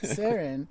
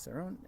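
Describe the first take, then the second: First: It is said like Sharon without the h. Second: It is said with a French-leaning pronunciation. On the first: This is the person's name. "like Sharon, without the H" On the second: This is the winery's name. "it sort of leans towards the f- French pronunciation"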